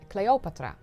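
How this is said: The name is pronounced the Dutch way. "In the Netherlands, we say Cleopatra"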